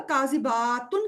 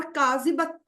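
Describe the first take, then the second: First: کاذباتن with the الف after ب stretched; کاذباتن, long aa before tun; long baa. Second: کاذبتن with a short, unstretched ب; کاذبتن, short a straight into tun. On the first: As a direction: draw out the با in کاذباتن. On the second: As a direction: keep the ba brief in کاذبتن. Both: Shown as a demonstration. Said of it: "ذرا سا آپ الف کو کھینچیں گے".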